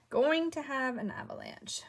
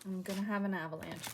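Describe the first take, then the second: First: Higher and louder, stressing going; emphatic repeat. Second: Said in the usual way. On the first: Shown as a demonstration. Crafter warning viewers of a spill, higher and louder. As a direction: lean into the warning.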